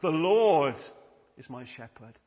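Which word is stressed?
Lord. The stress falls on the word Lord. The focus is on God first. The speaker calls it right.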